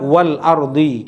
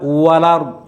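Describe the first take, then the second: First: There is a short pause before the second word. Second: The glottal stop is dropped and the words run together. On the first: "ada saktahnya. Ada berhenti dulu" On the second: "Itu namanya nakal, dipindah"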